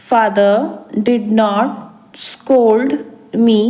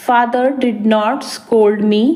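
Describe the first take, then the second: First: Father, did not, scold me said very slowly in separate pieces; slow chunked repeat. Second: Said in the usual way. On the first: Shown as a demonstration. Teacher to learners, very slow chunked repetition. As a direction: drill it word by word, very slowly. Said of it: "teacher repeats in slow chunks". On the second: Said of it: "teacher models sentence first".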